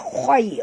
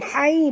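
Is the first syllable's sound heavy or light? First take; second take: heavy; light. First: The syllable sounds heavy and thick. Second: The syllable sounds light and thin. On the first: The speaker calls it right. "bunyi dia khoi" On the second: The speaker calls it wrong. "bukan hai"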